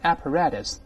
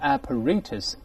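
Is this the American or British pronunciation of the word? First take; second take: American; British. First: The word is said the American way. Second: The word is said the British way. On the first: "在美国一般读成apparatus" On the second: "也有人读成apparatus，尤其在英国"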